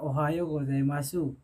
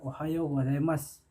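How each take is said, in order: First: The final u sound is clearly pronounced. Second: The final u sound is dropped. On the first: This is how it is written. "tulisannya Ohayo gozaimasu" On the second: This is how it is actually spoken. "kita ucapkan dengan Ohayo gozaimasu"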